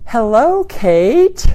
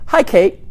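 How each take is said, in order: First: Stretched-out vowels in Hello; drawn-out, welcoming hello; friendly greeting. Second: Said in the usual way. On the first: Shown as a demonstration. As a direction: warm long-vowel greeting. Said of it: "See how I stretched out those vowels?". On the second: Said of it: "as opposed to".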